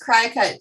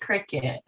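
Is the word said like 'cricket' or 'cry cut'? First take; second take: cry cut; cricket. First: It is said like 'cry cut'. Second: It is said like 'cricket'. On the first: The speaker calls it wrong. "I thought it was Crycut too" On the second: The speaker calls it right. "but it's Cricut. Like little insect"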